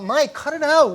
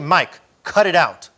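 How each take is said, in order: First: It is mumbled in a weak, whining voice. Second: It is said briefly in a calm, firm voice. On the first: The speaker calls it wrong. "it's not mumbling. with that whine" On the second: The speaker calls it right. "So if I just say"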